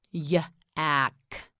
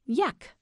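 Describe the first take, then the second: First: Yak split into "yuh" and "ack"; sounded out. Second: Said in the usual way. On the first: Shown as a demonstration. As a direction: break Yak after the first sound. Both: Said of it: "You say it, say yak".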